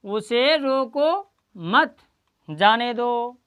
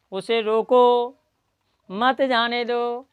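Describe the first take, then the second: First: Slow drawn-out "उसे रोको मत", pause, then "जाने दो"; pause after मत. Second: Slow "उसे रोको", pause, then "मत जाने दो" together; pause after रोको. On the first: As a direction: stretch up to "मत" and break before "जाने दो". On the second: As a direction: break before "मत", drawing out each half. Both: Shown as a demonstration. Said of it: "इसमें comma का अंतर है".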